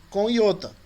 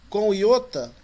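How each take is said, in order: No difference in how they are said.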